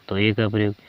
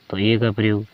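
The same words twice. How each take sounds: The two takes are said the same way.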